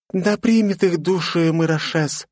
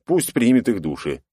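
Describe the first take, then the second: First: Slow, high, reverent blessing; solemn prayer. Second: Sarcastic echo of the prayer; mock the blessing, flat and dry. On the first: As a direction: pray over the dead. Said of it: "скрестила на груди руки девушка". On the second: Hero mocks her prayer. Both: A narrator's reading.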